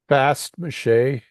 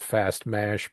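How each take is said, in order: First: The second word ends with an added vowel sound. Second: The second word ends with a plain sh sound. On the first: This is how the speaker's group says it. "is how we pronounce it" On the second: This is how some other people say it. "Some people call it fast mash"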